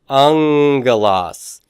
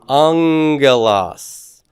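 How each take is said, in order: No difference in how they are said.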